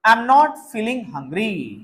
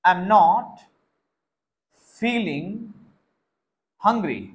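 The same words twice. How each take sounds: First: Very slow, every word laid out for copying; the whole sentence spoken once at slow dictation pace. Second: Each word set apart by long pauses; broken into separate words so students can write each one; word-by-word dictation. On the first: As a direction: dictate it slowly to the class. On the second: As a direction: dictate one word at a time, waiting between them. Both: Shown as a demonstration.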